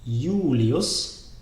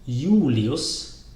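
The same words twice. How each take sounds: The two takes are said the same way.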